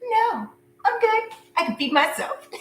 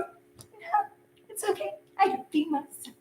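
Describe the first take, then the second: First: A laughing sarcastic brush-off. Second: High, whispered sarcastic brush-off; a breathy, mocking no thanks. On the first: Pretend. Turning down the ex's dinner invite, sarcastically high. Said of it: "And you're like". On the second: Reader's imagined face refusing the ex, whispered sarcasm. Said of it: "Like, all sarcastic".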